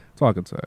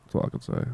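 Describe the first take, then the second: First: Said in the usual way. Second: Whisper. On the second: Real, not acted. Repeats line, second take whispered.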